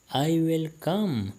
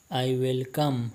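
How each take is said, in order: First: I will come, drawn out slowly, a bit higher; slow, careful repeat. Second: Said in the usual way. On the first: Shown as a demonstration. Teacher repeats phrase for Pashto learners, slow and clear. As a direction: spell it out slowly so learners can copy.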